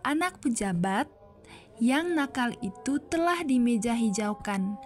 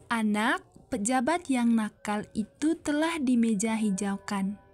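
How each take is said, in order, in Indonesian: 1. Jeda yang lebih panjang ada di antara pejabat dan yang. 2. Jeda yang lebih panjang ada di antara anak dan pejabat. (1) "antar pejabat dan yang kalimat dua" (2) "jeda yang agak lama antar anak dan pejabat"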